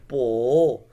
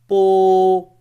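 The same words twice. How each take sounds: First: It is said with the third tone. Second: It is said with the first tone. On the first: "third tone" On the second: "the first tone"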